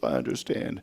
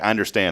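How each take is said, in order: First: It is said in a sad tone. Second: It is said in a careless tone.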